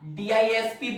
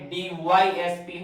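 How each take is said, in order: First: The second letter is said as 'I'. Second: The second letter is said as 'Y'. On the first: The speaker calls it wrong. "डीआईएसपी बोलते हो आप, वो गलत बोलते हो" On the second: The speaker calls it right. "डी वाई होता है, डीवाईएसपी होता है"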